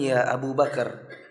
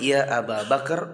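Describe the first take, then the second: First: The name's first word is pronounced Abu. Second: The name's first word is pronounced Aba. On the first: The everyday local form of the name is used. The speaker calls it wrong. "bukan ya Abu Bakar. Abu Bakar itu versi Indonesia" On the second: The vocative case ending is applied. The speaker calls it right. "Ingat ya Abu Bakar"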